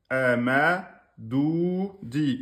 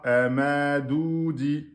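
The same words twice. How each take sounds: First: Amadoudi said slowly, the ou and the final i each held two beats; teacher modelling Amadoudi with both long vowels held. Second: Amadoudi run together, the long vowels not held; teacher showing the wrong Amadoudi, long vowels cut short; wrong reading. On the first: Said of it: "Ici, on a donc le deux temps". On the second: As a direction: rush Amadoudi so the di hooks onto the ou. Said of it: "C'est faux". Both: Shown as a demonstration.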